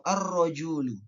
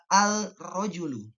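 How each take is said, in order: First: The L merges into a doubled r sound. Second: The L is clearly pronounced before the r. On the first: The speaker calls it right. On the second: The speaker calls it wrong.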